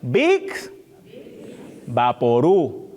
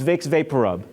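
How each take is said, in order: First: It is said with a Spanish-accented pronunciation. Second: It is said with a plain English pronunciation. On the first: The speaker calls it right. "the proper pronunciation of this" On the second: The speaker calls it wrong. "you might think this is Vicks VapoRub, but you would be wrong"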